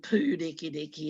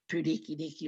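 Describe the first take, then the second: First: The first u vowel is held long. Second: The first u vowel is said short. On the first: The speaker calls it right. "It's always been" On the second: The speaker calls it wrong. "It's not"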